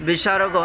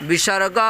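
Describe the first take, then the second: Both takes have the same delivery.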